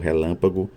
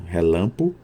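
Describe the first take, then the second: First: Every syllable of the word is pronounced. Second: A middle syllable is dropped from the word. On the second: "síncope, que é a supressão de um segmento sonoro"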